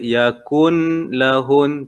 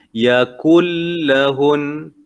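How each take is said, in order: First: The n is pronounced clearly before the l. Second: The n merges fully into the following l. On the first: The speaker calls it wrong. "Kita tak boleh baca yakun lahun, tak boleh" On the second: The speaker calls it right. "Dia yakul"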